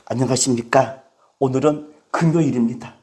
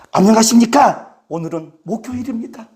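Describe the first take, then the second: First: Low, subdued YouTuber greeting; low-key mimicked video intro; YouTuber's greeting. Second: Mimicked host greeting in usual pitch; fuller-voiced imitation of a video intro; YouTuber's greeting. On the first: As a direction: imitate a host opening in a low, soft voice. Imitates a YouTuber's daily greeting. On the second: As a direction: open firmly, then ease off. Imitates the YouTuber on another day.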